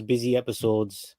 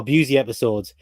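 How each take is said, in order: First: "busy" said like BIZ-ee; mispronounced name. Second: "busy" said as BYOO-zee; corrected pronunciation. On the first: Mispronounces, then corrects himself. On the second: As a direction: say "busy" with a long BYOO sound. Corrects his own pronunciation. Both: Real, not acted.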